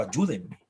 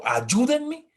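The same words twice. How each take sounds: First: Said in the usual way. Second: Higher mock cry for help; imitating a child yelling help; child screaming help. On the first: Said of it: "Hay un niño gritando". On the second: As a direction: shout it like a scared child. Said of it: "a un niño gritando".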